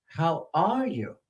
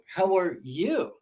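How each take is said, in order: First: "are" stretched and raised, "you" falling away; stress on ARE. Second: "you" swooping high and drawn out at the end; stress on YOU. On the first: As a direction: slowly lean on "are". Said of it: "they'll, they'll emphasize "are". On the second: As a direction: slowly build to a stressed "you". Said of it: "they might emphasize "you". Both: Shown as a demonstration.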